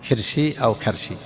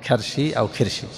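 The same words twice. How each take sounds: No difference in how they are said.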